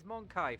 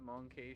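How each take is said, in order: First: The second syllable sounds like 'kai'. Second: The second syllable sounds like 'key'. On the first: The speaker calls it right. "it's Monkai for starters" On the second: The speaker calls it wrong. "can you calm down with the Monkey shit?"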